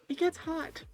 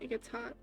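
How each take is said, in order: First: The word hot is said with strong emphasis. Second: The word hot has no special emphasis. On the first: The speaker calls it right. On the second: The speaker calls it wrong.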